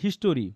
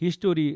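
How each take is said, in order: First: The word is said with three syllables. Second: The same.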